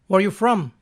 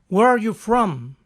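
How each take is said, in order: First: It is said quickly. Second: It is said at a normal pace.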